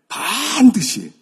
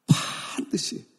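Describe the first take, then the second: First: 반드시 drawn out, high and very loud; emphatic 반드시. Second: 반드시 stretched on breath alone; hushed emphatic 반드시. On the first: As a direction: belt out 반드시 with a long first syllable. Preacher stresses a promise. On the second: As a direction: draw 반드시 out slowly in a voiceless rasp. Same word repeated after the climax. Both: Real, not acted.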